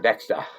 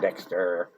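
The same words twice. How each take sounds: First: It ends without a strong R sound. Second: It ends with a long, strong R sound.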